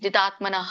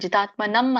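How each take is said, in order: First: The word ends with a breathy h sound. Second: The word ends with an m sound. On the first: The speaker calls it right. "ವಿಸರ್ಗಕ್ಕೆ ಯಾವಾಗ್ಲೂನು ಹ ಉಚ್ಚಾರಣೆ ಬರುತ್ತೆ" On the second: The speaker calls it wrong. "ಜಿತಾತ್ಮ ನಮ್ ಅಂತ ಹೇಳಿದ್ರಿ, ಅಲ್ಲಿ ಅನು ಸ್ವರ ಇಲ್ಲ"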